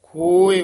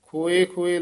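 First: ਖੋਏ pronounced correctly with sihari, firm; correct pronunciation. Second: ਖੋਏ ਖੋਏ said quickly as if written with laavan; ਖੋਏ read with laavan, a fast wrong example; wrong pronunciation. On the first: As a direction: stress ਖੋਏ firmly as written with sihari. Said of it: "ਸਿਹਾਰੀ ਲੱਗੀ ਹੋਈ ਹੈ". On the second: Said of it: "ਲਾਵਾਂ ਨਹੀਂ ਲਾਉਣੀਆਂ". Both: Shown as a demonstration.

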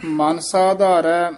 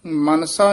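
First: ਮਨ kept apart from ਸਾਧਾਰੈ, slowly; slow, careful break after ਮਨ; separated words. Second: Mansa fused into one word; Mansa as a single quick word; run-together misreading. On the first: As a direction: say ਮਨ alone, then ਸਾਧਾਰੈ. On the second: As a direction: join ਮਨ and ਸਾ without a gap. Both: Shown as a demonstration. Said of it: "ਮਨਸਾ ਨਹੀਂ ਕਹਿ ਦੇਣਾ".

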